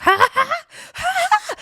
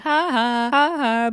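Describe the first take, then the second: First: Very high mimicked manic cackle; manic laugh. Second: Mock seated laugh, raised a little; mimicked laugh. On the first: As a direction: imitate a laugh tipping into mania. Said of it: "that turns in manic". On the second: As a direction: imitate her contained "ha, ha" before the outburst. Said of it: "she's sitting down like".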